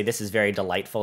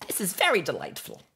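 First: Said in the usual way. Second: High-pitched character voice; Mister Whiskers. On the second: Acted. Streamer performing a viewer's request, in Mister Whiskers voice. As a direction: put on a much higher character voice. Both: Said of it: "in the Mister Whiskers voice".

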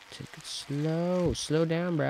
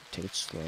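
First: "Take it slow" drawn out slowly, higher, every word stretched. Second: Said in the usual way. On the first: Shown as a demonstration.

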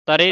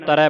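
First: ਤਰੇ ending in a narrow "ay"; wrong single lavan. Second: ਤਰੈ with an open "ai" vowel; double lavan ending. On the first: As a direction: close the final vowel of ਤਰੇ to "e". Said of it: "ਤਰੇ ਨਹੀਂ ਪੜਨਾ". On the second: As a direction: widen the end of ਤਰੈ to "ai". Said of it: "ਦੋ ਦਲਾਵਾਂ ਹੀ ਉਚਾਰਨ ਹੋਣ". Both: Shown as a demonstration.

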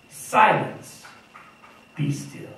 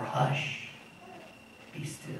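First: Firm, stern command to the storm, then dropping off; a stern master's command; commanding rebuke. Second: Hushed, much softer, nearly breathless; quiet the sea like soothing a child; a gentle hush, almost inaudible. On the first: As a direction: order the sea to be silent. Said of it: "said to the water". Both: Retold or imitated.

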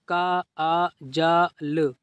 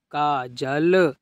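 First: काजल slowly, broken into separate sounds; sounded out. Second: काजल joined into one word, falling; blended reading. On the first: Teacher showing learners easy reading, काजल sounded out. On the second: Teacher completing the word for learners, blended reading. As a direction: read काजल whole after sounding it out. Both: Shown as a demonstration. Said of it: "इस तरीके से आप पढ़िए".

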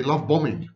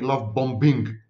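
First: BOMBING as bomming, silent second b; correct pronunciation. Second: BOMBING with a clearly sounded second b, bom-BING; deliberate mispronunciation. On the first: Professor recalling his earlier videos, silent-b BOMBING. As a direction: drop the middle b of BOMBING. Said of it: "I try to use the correct pronunciation". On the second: Professor mispronouncing to be understood, hard-b BOMBING. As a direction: hit the middle b in BOMBING, bom plus bing. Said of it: "I decided to mispronounce the word". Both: Shown as a demonstration.

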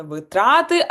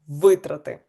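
First: Витрати with the stress on the second syllable, ви-ТРА-ти, said as the wrong form. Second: Витрати with the stress on the first syllable, ВИ-трати, and a falling tune; right stress. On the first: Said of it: "пам'ятаємо, що не витрати". (неправильний наголос: витрати, з наголосом на другому складі) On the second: (правильний наголос: витрати, з наголосом на першому складі) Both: Shown as a demonstration.

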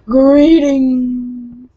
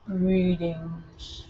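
First: Loud, slightly higher greeting; louder greeting. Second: Flat robotic greeting; monotone voice. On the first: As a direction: belt the greeting back. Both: Retold or imitated. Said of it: "speaking to you in a monotone voice".

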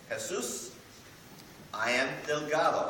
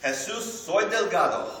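First: Said in the usual way. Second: Higher and louder, with a rising Jesus; playful declaration. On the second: Shown as a demonstration. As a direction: announce it boldly in Spanish. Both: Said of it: "I would say this to Jesus".

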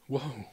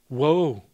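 First: Soft, sinking repeat of woe; hushed echo of grief; quiet lament. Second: A loud, grieving cry of woe; ringing cry of sorrow; loud lament. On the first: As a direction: let it fall away, softer. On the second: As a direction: call out the grief, louder. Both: Acted. Lament over coming suffering.

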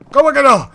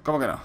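First: Loud and high in disbelief; indignant shout. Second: Said in the usual way. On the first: Real, not acted. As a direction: yell it back in outrage.

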